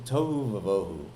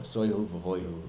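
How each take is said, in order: First: The first word begins with a t sound. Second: The first word begins with an s sound.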